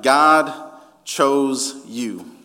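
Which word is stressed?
God. The stress is on God.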